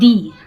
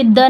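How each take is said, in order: First: The word is said with a long 'ee' vowel. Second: The word is said with a short 'uh' vowel. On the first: The speaker calls it right. "ये दी" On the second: The speaker calls it wrong. "यहाँ पे द नहीं होगा"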